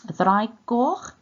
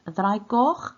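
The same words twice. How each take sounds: The two takes are said the same way.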